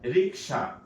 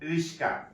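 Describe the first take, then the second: First: The k sound comes before the s sound. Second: The s sound comes before the k sound. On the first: This is the standard form of the word. The speaker calls it right. "সঠিক শব্দ হচ্ছে রিক্সা" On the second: This is how people casually distort the word. The speaker calls it wrong. "আমরা কি করি"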